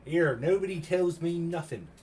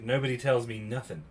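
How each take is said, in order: First: Higher, drawn-out comic complaint in a put-on voice; hammed-up slow whine, pitched up; mock grievance. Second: Said in the usual way. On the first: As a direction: play up being left out, slowly.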